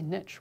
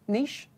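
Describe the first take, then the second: First: It is said with an American pronunciation. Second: It is said with a non-American pronunciation.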